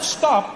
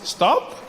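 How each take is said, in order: First: It sounds like a firm, forceful command. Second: It sounds like a soft, casual suggestion.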